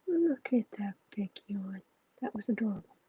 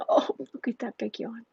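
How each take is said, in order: First: Adoring coo. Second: Said in the usual way. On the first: Real, not acted. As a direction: softly melt over a sleepy pet. Cooing over pet's yawn.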